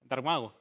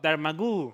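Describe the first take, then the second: First: The name ends with an 'oh' sound. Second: The name ends with an 'oo' sound. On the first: The speaker calls it right. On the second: The speaker calls it wrong.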